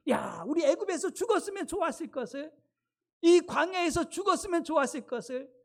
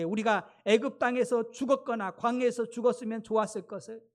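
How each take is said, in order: First: High-pitched complaining lament of the people; acted grumbling. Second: Said in the usual way. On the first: Israelites wish they had died in Egypt, acted grumbling. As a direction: bemoan it as the resentful crowd. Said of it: "그러면서 막 원망하는 거예요". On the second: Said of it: "온 회중이 그들에게 이르되".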